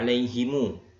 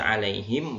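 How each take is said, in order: First: The final m is followed by a u vowel. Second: The word ends on a bare m sound. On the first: This is the reading used when continuing. "boleh silah" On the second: This is the reading used when stopping. "Boleh sukun"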